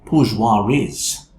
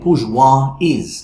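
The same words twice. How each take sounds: First: An r sound links the two words. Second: The words join with no r sound between. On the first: "we're going to say bourgeois is" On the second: "we're not going to say bourgeois is"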